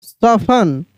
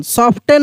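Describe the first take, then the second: First: "सॉफन" with no T sound; silent T. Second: "सॉफ्टन" with the T sounded; wrong T-sounded pronunciation. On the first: Teacher correcting the reading, "सॉफन" with silent T. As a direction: say "सॉफन" as "sof-an", T dropped. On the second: Teacher showing what not to read, "सॉफ्टन" with T sounded. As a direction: sound the T in "सॉफ्टन", "sof-ten". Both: Shown as a demonstration. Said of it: "सॉफ्टन नहीं".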